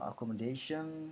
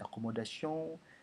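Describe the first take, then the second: First: It is pronounced with English sounds and stress. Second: It is pronounced with French sounds and stress.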